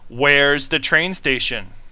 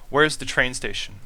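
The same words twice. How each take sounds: First: It is said loudly. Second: It is said at normal volume.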